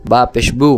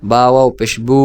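First: Said in the usual way. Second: Long, sustained বু at the end; elongated vowel. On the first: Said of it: "এটা স্বাভাবিক উচ্চারণ হরকতের". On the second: Shown as a demonstration. Teacher repeating ba for students, বু held long. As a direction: stretch out the closing বু. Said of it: "মদের সাথে টেনে উচ্চারণ করেন".

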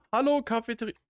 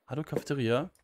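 First: High, loud playful hello; silly loud greeting. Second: Said in the usual way. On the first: Pretend. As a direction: greet the room like a cartoon.

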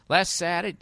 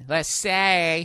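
First: Said in the usual way. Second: Saturday with the consonants swallowed; Boston accent. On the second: Shown as a demonstration. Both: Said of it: "as they say in Boston".

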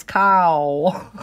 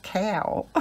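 First: "cow" said loud with an open "ah-oo" vowel; corrected pronunciation. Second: "cow" mimicked as twangy "kay-ow"; southern twang. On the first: Retold or imitated. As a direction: correct them with a big loud "cow", no twang. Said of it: "It's cow". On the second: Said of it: "It's not cow".

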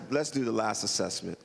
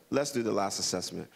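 The two takes are said the same way.

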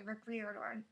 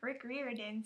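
First: Riordan slurred as "Ir-dor"; fumbled name. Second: Riordan said clearly as "Reer-din"; carefully re-say Riordan as "Reer-din"; corrected name. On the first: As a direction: trip over the name Riordan, mumbled. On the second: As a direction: fix the slip, Rick Riordan said clearly. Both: Shown as a demonstration. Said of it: "I didn't say that".

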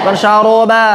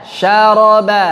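First: Syaroba with rounded middle o; teacher showing wrong syaraba. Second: Syaraba slowly with open a vowels; teacher showing right syaraba; correct syaraba. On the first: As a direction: show the rounded error. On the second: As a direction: stretch each a. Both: Shown as a demonstration.

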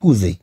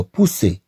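First: بوزي with a voiced Z between the vowels; بوزي, middle consonant Z rather than S; wrong Z sound. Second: بوسي with an unvoiced S between the vowels; بوسي, middle consonant S rather than Z; correct S sound. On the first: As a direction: say بوزي as the misreading of "pousser", buzzing Z. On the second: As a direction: say بوسي as French "pousser", never voicing the S. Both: Shown as a demonstration. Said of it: "وليس".

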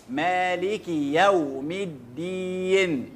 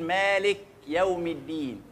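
First: مالك with a full kasra on the kaf, slowly chanted. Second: مالك with the kaf swallowed, no vowel; wrong silent kaf. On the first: Teacher showing students the correct reading, slow chant. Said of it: "أدي الكسرة حقها وأدي الياء حقها". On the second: Teacher imitating how most people misread it, kaf made silent. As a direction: rush over the kaf in مالك. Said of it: "الأغلبية فينا بيسكن الكاف". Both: Shown as a demonstration.

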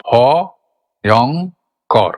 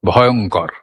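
First: "ভ-য়ং-কর" very slowly in three separate syllables, long pauses between. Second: Said in the usual way. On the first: Shown as a demonstration. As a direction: break "ভ-য়ং-কর" into ভ, য়ং, কর, each standing alone. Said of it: "তার মধ্যে কটা syllable ছিল". ("ভ-য়ং-কর" থেমে থেমে, এক একটা দল আলাদা করে) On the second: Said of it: "শব্দটা হলো".

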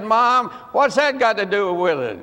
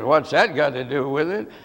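First: Mildly protesting son, falling at the end; retold protest. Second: Low, quick echo with a rising end; echoed question. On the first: Son questions mom's advice about the Bible, protesting. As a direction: object to mother's advice, lightly acted. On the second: Retold or imitated. Mother repeats her son's question to him, echoing it. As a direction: throw the question back, as the mother.

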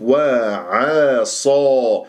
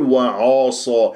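First: وعصى drawn out, thin ayn before heavy sad; light ayn. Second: وعاصى with ayn darkened to match the sad; wrongly heavy ayn. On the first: Teacher models for students, light ayn in وعصى. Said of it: "لا تفخم العين". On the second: Teacher shows students the error, heavy ayn in وعاصى. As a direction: thicken the ayn in وعاصى to a dark aw. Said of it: "لا تفخم العين لمجاورتها للصاد". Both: Shown as a demonstration.

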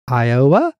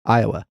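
First: "Iowa" louder, with a big O and rising end; mock an over-stressed O in "Iowa"; "Iowa" swung up like a question; mimicked emphasis on O. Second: Said in the usual way. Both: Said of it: "That's how you say".

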